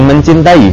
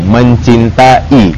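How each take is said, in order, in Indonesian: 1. Ada bunyi y yang menyambung a dan i. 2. Vokal a dan i terdengar jelas terpisah. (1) "ada kesan Y-nya antara A sama I" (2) "begitu cara mereka ngomong"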